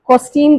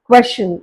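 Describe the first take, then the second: First: The word begins with a plain k sound. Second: The word begins with a kw sound. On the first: The speaker calls it wrong. "கொஸ்டின் கிடையாது" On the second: The speaker calls it right. "கே டபிள்யூ"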